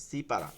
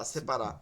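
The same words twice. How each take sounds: First: "সি পারা" as two words, long "সি"; original Persian form. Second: Said in the usual way. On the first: Shown as a demonstration. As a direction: separate "সি" from "পারা", with a clear ee vowel. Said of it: "সেপারা মূলত হচ্ছে ফার্সি শব্দ". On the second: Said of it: "আমরা বলি কি?".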